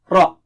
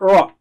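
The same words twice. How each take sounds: First: The R is thick and low-pitched. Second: The R sounds like an English R. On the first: The speaker calls it right. "Ra is thick here. ... Low frequency" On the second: The speaker calls it wrong. "It's not Ra"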